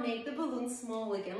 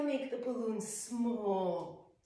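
First: Said in the usual way. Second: "small" stretched long and soft, slowly; slow soothing "small", stretched out; slow drawn-out exhale. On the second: Shown as a demonstration. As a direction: let the word "small" drain away slowly like air. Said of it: "And as you exhale".

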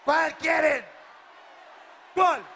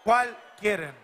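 First: Higher, louder "¿Cuál quieren?" yelled out; shouted to the crowd. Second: Said in the usual way. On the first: Real, not acted. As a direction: push "¿Cuál quieren?" up and out to the back rows. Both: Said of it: "asks crowd twice".

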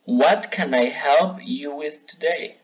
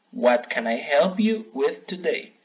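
First: Slow, careful model sentence for learners; slow model phrase. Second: Said in the usual way. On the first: Shown as a demonstration. Teacher modelling a phrase for students, said slowly. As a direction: spell it out slowly so students can copy. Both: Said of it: "Aquí hay algunos ejemplos".

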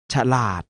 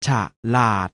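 First: Said in the usual way. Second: ฉะลาด split into ฉะ and ลาด; short ฉะ, clear gap, then ลาด; syllable by syllable. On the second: Shown as a demonstration. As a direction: sound out ฉะลาด in two beats. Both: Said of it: "อ่านว่า".

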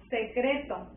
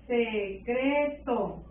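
First: Said in the usual way. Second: "Secreto" drawn out very slowly in syllables; teacher slowly sounding out each syllable of "Secreto". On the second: Shown as a demonstration. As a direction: stretch "Secreto" into se-CREEE-to. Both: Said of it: "Tienes que ir escuchando las pronunciaciones".

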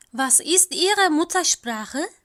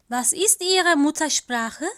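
No difference in how they are said.

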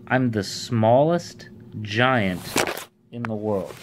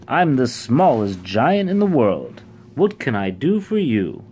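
First: Slow, spaced-out repetition; deliberate repeat. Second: Louder, proud announcement. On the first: Shown as a demonstration. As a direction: repeat it slowly for the listeners. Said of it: "what did he just say?". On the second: A narrator's reading. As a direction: announce it with pride. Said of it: "he replied proudly".

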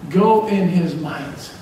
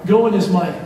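First: "Go in his might." stretched slowly, each word weighted; slow, drawn out. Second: Said in the usual way. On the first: Shown as a demonstration. Preacher repeats the sermon title to the church, slow and drawn out. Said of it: "repeats the theme phrase slowly". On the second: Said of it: "repeats the theme phrase".

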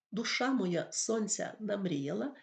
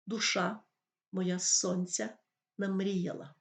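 First: Said in the usual way. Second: «Душа моя сонця намріяла» read slowly, every stressed syllable of «Душа», «моя», «сонця», «намріяла» leaned on; rhythmic stressed reading. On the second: Shown as a demonstration. Teacher shows the class the stress pattern, slow and marked. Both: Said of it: "Якщо поставити наголоси правильно".

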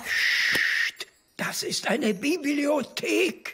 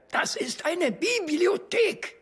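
First: Hushed, slow, high scolding; librarian shush. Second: Slow, high, stern reminder; stern scolding. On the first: Librarian hushing the cheer. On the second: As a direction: scold them slowly. Librarian scolding in library. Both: Acted.

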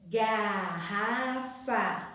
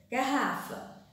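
First: "Garrafa" very slow, gar-ra-fa; syllable by syllable. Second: Said in the usual way. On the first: Shown as a demonstration. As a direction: stretch "Garrafa" into three clear beats. ("Garrafa" bem devagar, gar-ra-fa) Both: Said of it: "Vamos separar oralmente".

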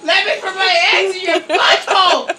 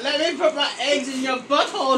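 First: Insistent, raised mock plea; playful spider demand, pushed harder; pleading spider. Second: Spider's request. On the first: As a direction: beg loudly as the hammed-up spider. Louder repeat after "Please!. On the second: Pretend. Voicing spider, first softer take.

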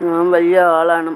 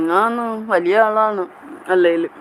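First: Said in the usual way. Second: Playful boast. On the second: Pretend. Host claiming to be a big person, playfully boasting. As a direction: stretch ആളാണ് out high, then let it fall.

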